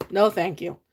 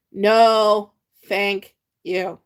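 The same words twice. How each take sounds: First: Said in the usual way. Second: "No" punched louder, then "thank you" dropped back; emphatic No. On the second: Shown as a demonstration. Host refusing scrapple again, stress on No.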